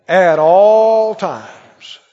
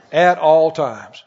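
First: Slow, swelling psalm reading, loud peaks; scripture reading. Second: Slow, deliberate answer. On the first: Acted. Preacher leading the church in the psalm, slow and ringing. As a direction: proclaim the psalm slowly like a preacher. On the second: Shown as a demonstration. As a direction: spell out the answer slowly. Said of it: "He said, "I'll bless the Lord when?".

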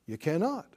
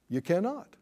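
No difference in how they are said.

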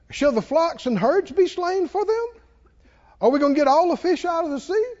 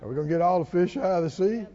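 First: High-pitched sarcastic questioning. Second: Quick, understated sarcastic question. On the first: Preacher reads Moses questioning God, sarcastic. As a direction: ask in mock disbelief, pitch lifted. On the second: Preacher repeats Moses's question in passing, sarcastic. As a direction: toss the question off quickly, lightly mocking. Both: Retold or imitated. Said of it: "See, that's sarcastic".

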